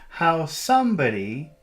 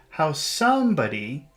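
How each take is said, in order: No difference in how they are said.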